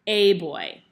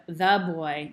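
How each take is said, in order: First: "a" said as a loud, full "ay"; punched "a", pronounced like the letter A; stress on A. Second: Put-on "the" set apart before boy; "the" given its own weight; stress on THE. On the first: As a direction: hit "a" hard, then drop onto boy. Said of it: "now we're talking about". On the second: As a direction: lean on the word "the", contrasting the article. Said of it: "So like instead of". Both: Shown as a demonstration.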